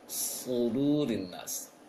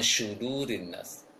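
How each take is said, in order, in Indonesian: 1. Konsonan pertamanya bunyi 's' yang tebal. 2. Konsonan pertamanya bunyi 'sh' biasa. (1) "tebalkan saja uh, sin yang tanpa titik" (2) "jangan syudurin nas"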